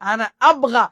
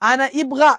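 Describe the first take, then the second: First: The verb begins with an 'a' vowel. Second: The verb begins with an 'i' vowel. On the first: The speaker calls it right. "আ দিয়া উচ্চারণটা শুরু হবে" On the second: The speaker calls it wrong. "রং, এটা ভুল"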